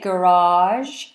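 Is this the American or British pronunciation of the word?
American. It is said with an American pronunciation. "Americans say garage"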